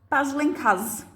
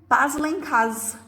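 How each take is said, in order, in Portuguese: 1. A primeira palavra é reduzida a uma sílaba. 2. A primeira palavra é reduzida a uma sílaba.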